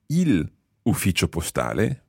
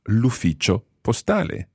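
First: The article is a separate syllable before the noun. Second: The article's vowel is dropped and joined to the noun. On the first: The speaker calls it wrong. "rather than saying il ufficio postale" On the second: The speaker calls it right. "we use L apostrophe"

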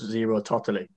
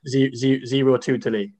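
First: The second word is said like 'totally'. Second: The second word is said like 'tootely'. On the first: The speaker calls it right. "it's zero totally" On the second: The speaker calls it wrong. "when he said zero tutely"

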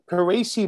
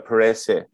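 First: The middle vowel sounds like 'ee'. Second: The middle vowel sounds like 'eh'. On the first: It follows the player's own preferred pronunciation. "how else would you have it done?" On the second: It follows the heritage pronunciation of the name. "like you put an H after the E all the way"

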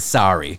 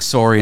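First: It is said with an American accent. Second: It is said with a Canadian accent.

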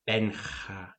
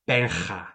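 First: The h-like rasp is quieter but still heavy. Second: The h-like rasp in the name is loud and heavy. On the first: "That's lower volume, but still the same" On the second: "That's a lot"

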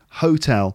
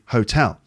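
First: The stress is on the first syllable. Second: The stress is on the second syllable. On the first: The speaker calls it wrong. "with the stress on the first syllable instead of the second" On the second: The speaker calls it right. "it should be hotel"

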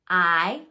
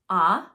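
First: The vowel is said with its long sound. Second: The vowel is said with its short sound. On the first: "And there's also the long sound" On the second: "There's the short sound"

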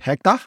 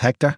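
First: It is said in a Tamil Indian accent. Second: It is said in the speaker's own Irish accent.

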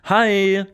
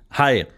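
First: The greeting sounds forced and artificial. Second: The greeting sounds too serious.

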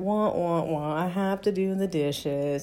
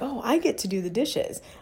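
First: It is said in a gloomy, whining tone. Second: It is said in an excited, grateful tone.

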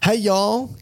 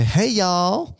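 First: It is said in the speaker's own accent. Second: It is said in a put-on American accent.

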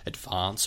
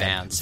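First: It is said with a long 'ah' vowel. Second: It is said with a short flat 'a' vowel.

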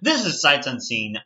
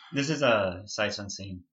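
First: It is said with more enthusiasm and energy. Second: It is said flatly, with little energy.

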